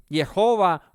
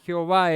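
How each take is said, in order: First: Jehová starting on a Y sound; Jehová with Y in place of the jota. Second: Jehová starting on a Spanish jota; Jehová said "Heobá", J as in Spanish. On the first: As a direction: say Jehová as "Yehová", drawn out slowly. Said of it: "se escribe con Y". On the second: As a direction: say Jehová with a throaty J at the front. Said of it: "no se escribe con J". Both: Shown as a demonstration.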